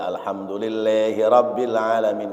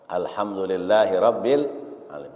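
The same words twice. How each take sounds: First: The a vowels are shifted toward e. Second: The a vowels are pronounced as open a. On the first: The speaker calls it wrong. "enggak boleh" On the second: The speaker calls it right.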